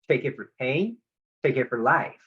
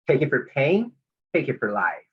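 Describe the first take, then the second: First: The voice stays level or rises at the end. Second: The voice drops down at the end.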